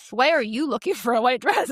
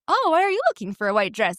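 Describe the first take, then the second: First: Accusing judgmental question. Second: Higher, light innocent asking, rising on "Oh"; curious friendly question. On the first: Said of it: "It was". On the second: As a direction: ask like a harmless curious shopper. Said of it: "It wasn't". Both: Shown as a demonstration.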